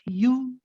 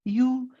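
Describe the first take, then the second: First: The vowel is short, one count. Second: The vowel is short, one count.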